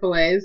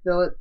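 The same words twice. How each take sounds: First: The word is said with an American pronunciation. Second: The word is said with a British pronunciation. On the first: The speaker calls it right. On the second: The speaker calls it wrong.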